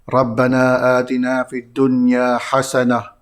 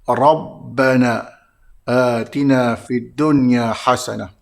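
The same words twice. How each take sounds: First: The r is pronounced thin and light. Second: The r is pronounced thick and heavy. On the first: The speaker calls it wrong. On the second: The speaker calls it right.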